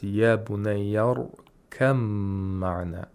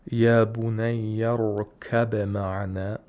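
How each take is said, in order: First: The b merges into a long nasal m. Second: A distinct b sound is heard before the m. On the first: "Haf says" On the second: "instead of saying"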